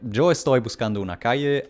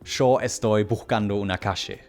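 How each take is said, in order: First: It is said in a neutral Spanish accent. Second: It is said in an Argentinian Spanish accent. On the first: "Instead of something like" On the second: "That is just a more Argentinian accent"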